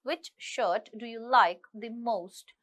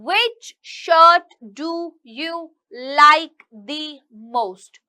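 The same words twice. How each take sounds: First: The jaw stays up, with rounded lip movement. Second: The jaw drops wide, giving very open sounds. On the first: "कोशिश कीजिए इसको ज्यादा आप drop ना करें नीचे" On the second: "जॉ जो है हमारा इसे ड्रॉप करके बात करते हैं"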